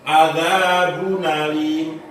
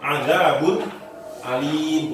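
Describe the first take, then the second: First: The nun links straight into alim, no stop. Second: The glottal stop is kept before alim. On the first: "tapi adzabun alim" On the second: "bacanya bukan adzabun alim, bukan begitu"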